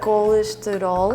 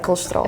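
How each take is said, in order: First: The word is said slowly and carefully. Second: The word is said quickly, at natural speed. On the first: "if you slow, slow it down, it's like" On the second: "if you speak with a normal, like, you know, speed"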